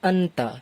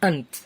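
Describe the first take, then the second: First: The word ends with a final vowel sound. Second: The word ends on a bare consonant sound.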